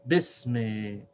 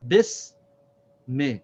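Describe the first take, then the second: First: Bis me run together, drawn out and lower; joined syllables. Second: Bis, pause, me; separate syllables. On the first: Teacher puts the word together, Bis me in one slow breath. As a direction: join "Bis me" without a gap, lengthening both. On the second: Teacher models pronunciation, Bis and me said separately. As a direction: break "Bis me" in two, long s then short me. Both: Shown as a demonstration. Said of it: "This is how we pronounce this".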